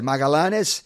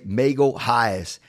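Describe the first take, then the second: First: The name is said with Spanish-style pronunciation. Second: The name is said with American English pronunciation. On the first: "Spanish speakers said Magalanes" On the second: "a lot of like Americans and English speakers say Magalhães"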